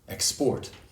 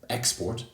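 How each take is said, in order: First: The stress is on the second syllable. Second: The stress is on the first syllable. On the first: It is used as a verb. "the verb tends to have stress on the second syllable" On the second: It is used as a noun. "the noun has stress on the first syllable"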